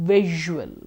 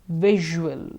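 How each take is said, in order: Both takes have the same delivery.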